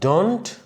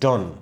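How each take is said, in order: First: The final t sound is pronounced. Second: The final t sound is dropped. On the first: "ডন্ট কিন্তু আমরা বলবো না" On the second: "আমরা এখানেও টি কেটে দেব"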